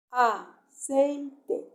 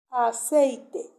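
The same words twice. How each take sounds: First: "aceite" broken as a... cei... te; split into syllables. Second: Said in the usual way. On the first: Shown as a demonstration. Teacher showing a class how to divide a word, "aceite" in separated syllables. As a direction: say "aceite" syllable by syllable, pausing between each. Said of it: "lo separo en sílaba". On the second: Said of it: "qué palabra puse".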